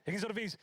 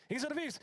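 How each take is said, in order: First: Said in the usual way. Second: Much higher, mock squeak; high squeaky teammate voice. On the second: Repeated higher.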